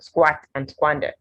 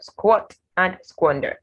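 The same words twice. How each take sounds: First: The vowels are not O sounds. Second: The vowels are O sounds. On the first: The speaker calls it wrong. "So it's not squat and squander" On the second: The speaker calls it right. "you have squat and squander"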